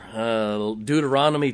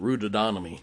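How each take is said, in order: First: The word begins with a 'd' sound. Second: The word begins with an 'r' sound. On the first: The speaker calls it right. "how to say it right" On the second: The speaker calls it wrong. "I heard a young person one day called it Rudodonomy"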